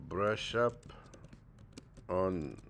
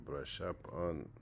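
First: Said in the usual way. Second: Slow model phrase. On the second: Shown as a demonstration. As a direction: brush up on said very slowly, falling on on.

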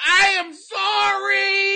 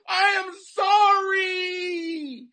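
First: High, loud, slow wailing sorry; fake sobbing apology. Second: High, loud, very slow wailing sorry; fake sobbing apology. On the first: Comic picking the millions, hammed-up wailing apology. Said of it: "you can have millions of dollars or you can apologize". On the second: Comic choosing the millions, very slow wailing apology. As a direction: drag it out as a hammed-up sob. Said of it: "It's millions of dollars".

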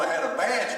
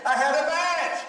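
First: Said in the usual way. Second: High, indignant cry of disbelief; exasperated outcry. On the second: Retold or imitated. Pastor recalling his frustration at the detention center, high exasperated cry. Pastor retells losing focus.

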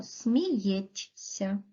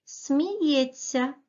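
First: Сміється read with a separate soft т and с; сміється sounded out as t then s; spelling pronunciation. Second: Сміється said with a merged ts sound, smiyetsya; natural pronunciation. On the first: Teacher spells the word aloud for pupils, sounding every letter. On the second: Teacher says the word to pupils as it sounds. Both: Shown as a demonstration. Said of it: "а пишемо".

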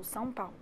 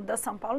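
First: Said in the usual way. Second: "the São Paulo" with the article, rising at the end; a deliberately wrong "the São Paulo", an example of a mistake; wrong article use. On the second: Shown as a demonstration. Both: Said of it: "não, São Paulo".

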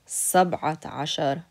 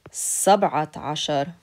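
The two takes are said the same way.

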